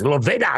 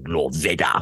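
First: It is said in a playful Joker-Stewie voice. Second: It is said in a serious, menacing voice.

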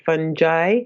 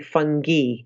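First: It is said the American way. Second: It is said the British way.

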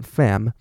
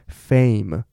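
First: The vowel is a short flat 'a' sound. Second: The vowel glides from 'e' toward 'i'. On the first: The speaker calls it wrong. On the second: The speaker calls it right.

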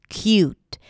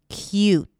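The two takes are said the same way.

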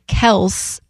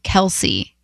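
First: The name ends in a single 's' sound. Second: The name ends in an 'ee' sound. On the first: The speaker calls it right. "we should be saying Kels" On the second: The speaker calls it wrong. "instead of Kelsey"

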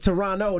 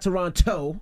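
First: The second t is dropped. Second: The second t is clearly sounded.

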